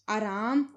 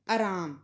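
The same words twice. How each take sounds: First: आराम with long opening aa; double long vowel. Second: आराम said as araam, short start; Punjabi short vowel. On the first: Teacher showing the incorrect form, long-vowelled आराम. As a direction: hold both vowels of आराम. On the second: Teacher showing the correct form, आराम with short start. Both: Shown as a demonstration. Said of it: "आ दी मात्रा दो बार प्रयोग नहीं".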